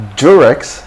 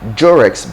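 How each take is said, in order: First: It begins with a j-like sound. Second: It begins with a j-like sound.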